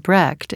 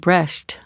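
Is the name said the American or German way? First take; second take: American; German. First: The name is said the American way. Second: The name is said the German way. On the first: "in America" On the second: "in Germany"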